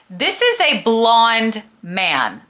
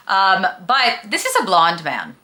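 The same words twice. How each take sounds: First: "This is a blonde man" spelled out slowly, each word hit hard; slow, every word stressed. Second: Said in the usual way. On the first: Shown as a demonstration. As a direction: repeat it slowly, punching every word so it sinks in. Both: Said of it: "Let me repeat that".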